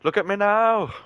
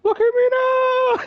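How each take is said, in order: First: High mocking taunt, like a cartoon villain. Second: Very high, slow mocking squeak; squeaky slow taunt. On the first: Gamer gloats at the enemy he just killed with a high taunt. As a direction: squeak it out to gloat. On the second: Friend echoes the kill taunt, even higher and slower. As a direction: drag it out in a silly squeaky gloat.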